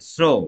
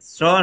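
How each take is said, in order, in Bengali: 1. এই স্বরধ্বনিটি গোল, কুঁচকানো ঠোঁটে বলা হয়। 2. এই স্বরধ্বনিটি খোলা, ছড়ানো ঠোঁটে বলা হয়। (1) "অর্থাৎ ঠোঁটের আকৃতি কুঁচকে এসেছে, সংকুচিত হয়েছে।" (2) "আমাদের হয়েছে স্র নয়"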